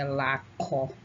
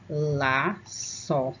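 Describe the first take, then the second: First: The middle consonant is a hard K sound. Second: The middle consonant is a hissing S sound. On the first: The speaker calls it wrong. "laço sem a cedilha, ficaria laco" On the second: The speaker calls it right. "quando a gente coloca a cedilha ... o C passa a ter som de S"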